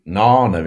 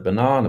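First: "nana", without the opening ba; "nana" with stress on its first syllable; child's shortened banana. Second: Said in the usual way. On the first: Shown as a demonstration. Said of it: "why children say nana instead". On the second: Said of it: "instead of banana".

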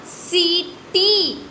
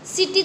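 First: सीटी with both long ई drawn out; stretched reading. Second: सिटी with a short clipped इ; the wrong short-vowel सिटी; short wrong reading. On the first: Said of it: "ऐसे ही बोलते हैं ना". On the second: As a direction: say सिटी quickly, no stretch. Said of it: "सिटी तो नहीं बोल देते". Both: Shown as a demonstration.

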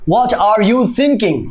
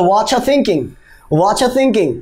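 First: "what are you thinking?" slow and separate; slow full form. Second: "What are thinking?" said as watcha thinking; contracted watcha. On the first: Teacher shows the long form first. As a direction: say every word apart slowly. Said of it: "যেমন". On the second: Teacher models the short form. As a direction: blend into watcha. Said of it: "তাহলে". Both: Shown as a demonstration.

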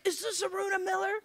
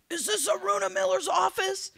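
First: High, quick imitated caller's question; tentative caller. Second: Loud, high-pitched mock irate caller; angry caller. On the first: The same caller ringing back, imitated high and quick, milder. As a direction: ask high and fast, without shouting. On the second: Angry caller phoning the candidate's office, imitated as high and irate. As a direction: play an irate man demanding an answer. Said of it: "I get this angry phone call".

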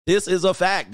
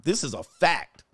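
First: Louder insistent repeat; emphatic fact. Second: Said in the usual way. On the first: Shown as a demonstration. Comic insisting to viewers it is a fact. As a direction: hammer it home.

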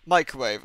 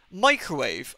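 First: Microwave. said flat with a falling tune; flat statement. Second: Microwave? asked with a puzzled rising tune; puzzled question. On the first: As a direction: state Microwave. blankly, as a dull fact. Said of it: "I was like". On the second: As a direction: ask Microwave? as if the word makes no sense. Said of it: "I was sitting there like". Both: Retold or imitated.

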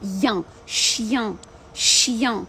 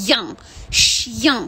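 First: "Ян" then "chien", a Y glide into a nasal a; nasal glide demo. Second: Louder "Ян, chien" with the glide going into the nose; nasal glide demo. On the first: Teacher breaks down "chien" sound by sound. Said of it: "переходжу на я з носом". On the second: Teacher shows the sound once more. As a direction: show "Ян" inside "chien". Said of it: "переходить в Я і йде в нос". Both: Shown as a demonstration.

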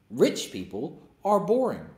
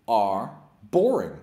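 First: Slow repeat, leaning on boring; slow emphasis. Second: Slow, drawn-out stress on boring; slow emphasis. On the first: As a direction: say it again, stretching boring. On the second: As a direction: drag out boring with disdain. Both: Real, not acted.

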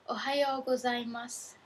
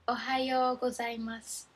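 No difference in how they are said.

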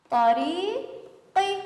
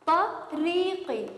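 First: طريقي stretched very slowly, higher; slow spelling-out. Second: Slow spelling again. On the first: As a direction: sound out each letter of طريقي slowly. (تهجئة بطيئة جدًا لكلمة طريقي) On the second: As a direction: stretch each sound of طريقي for children. (نطق ممدود وهادئ لكلمة طريقي) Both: Shown as a demonstration. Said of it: "نلفظ كل حرف حسب صوته".

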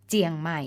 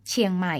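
First: เจียงใหม่ with unaspirated จ for ช; Lanna spoken pronunciation. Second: Said in the usual way. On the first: Shown as a demonstration. Narrator gives example of Lanna speech, เจียงใหม่ opening on unaspirated j. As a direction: say เจียงใหม่, "jiang mai", as Lanna people do. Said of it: "ออกเสียงจอจานในภาษาพูดของคนล้านนา". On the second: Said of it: "เขียนชอช้างในภาษาเขียน".

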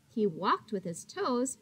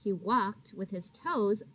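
The two takes are said the same way.

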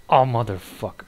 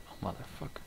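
First: Said in the usual way. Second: Hissed under the breath; whispered curse. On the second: Real, not acted. Gamer muttering at the enemy, whispered curse. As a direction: breathe the curse out, voiceless and much softer.

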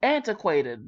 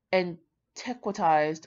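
First: Antiquated said firmly as AN-tuh-kway-ted; corrected pronunciation. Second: Antiquitized said slowly as an-TEK-wuh-tized; unsure pronunciation. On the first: Shown as a demonstration. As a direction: settle on the right word Antiquated. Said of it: "There we go". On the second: Real, not acted. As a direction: sound out Antiquitized carefully, unsure. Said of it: "I think I'm saying that right".

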